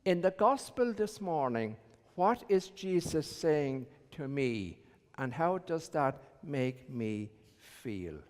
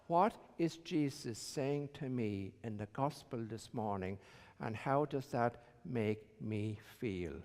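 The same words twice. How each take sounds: First: Said in the usual way. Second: Hushed reflective echo of the question; softer reflective repeat. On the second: Shown as a demonstration. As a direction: say it again quietly, as if to yourself. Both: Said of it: "a good way of approaching it is to ask yourself".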